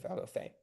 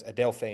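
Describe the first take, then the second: First: "adelphe" leaning on the final "phe"; stress on last syllable. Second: "adelphe" punched on "del"; stress on middle syllable. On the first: Tutor shows the original accent, "adelphe" stressed at the end. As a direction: keep "adel" light, land on FAY in "adelphe". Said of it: "instead of adelphe". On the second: Tutor shows a moved accent, "adelphe" stressed on "del". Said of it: "you would pronounce it as". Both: Shown as a demonstration.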